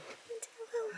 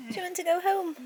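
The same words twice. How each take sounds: First: High, soft cooing question; whisper-coo it to the cat; hushed pet talk. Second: High sweet question to the cat; pet-talk question; high cooing pet voice. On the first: Softer repeat to cat. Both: Real, not acted.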